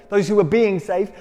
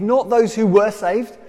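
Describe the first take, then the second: First: "being" leaned on as the correct tense; stress on "being". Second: "were" leaned on as the rejected tense; stress on "were". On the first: Preacher explains salvation as ongoing, stressing "being". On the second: Preacher rules out a finished salvation, stressing "were". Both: Shown as a demonstration. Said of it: "present continuous, ongoing into the future".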